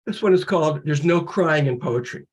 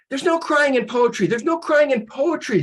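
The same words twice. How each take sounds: First: Said in the usual way. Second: Higher, barking baseball coach; gruff coach. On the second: Acted. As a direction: bark it like a fed-up coach. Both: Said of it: "says Coach Bukowski".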